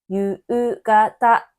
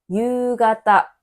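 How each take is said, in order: First: The u sounds are said as two separate vowels. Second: The u sounds merge into one long vowel. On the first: The speaker calls it wrong. "日本人に夕方という人はいません" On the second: The speaker calls it right. "文字に書くのと実際にする発音がちょっと違います"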